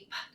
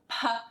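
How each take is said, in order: First: The p is said alone with no vowel after. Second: The p is followed by a short uh vowel. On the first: The speaker calls it right. "make sure that you don't add the schwa to the end. It should be p" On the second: The speaker calls it wrong. "not p"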